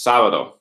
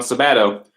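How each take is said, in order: First: Sábado stressed as SA-ba-do; stress on first syllable. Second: Sábado mis-stressed as sa-BA-do; wrong stress on middle syllable. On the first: Spanish teacher correcting the emphasis for students, first-syllable stress on sábado. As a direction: hit the opening syllable of sábado, letting the rest fall away. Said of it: "where to put your emphasis in your voice". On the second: Spanish teacher showing students the wrong way, stress on middle of sábado. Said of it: "it's not sábado". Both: Shown as a demonstration.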